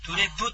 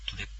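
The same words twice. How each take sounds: First: The final p is released with a vowel. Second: The final p only closes the lips. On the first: The speaker calls it wrong. "そういう発音でなく" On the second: The speaker calls it right. "口を閉じるだけみたいな"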